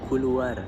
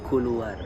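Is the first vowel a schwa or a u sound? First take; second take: u sound; u sound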